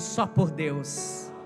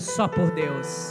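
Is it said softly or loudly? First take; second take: softly; loudly. First: It is said at normal volume. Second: It is said more loudly.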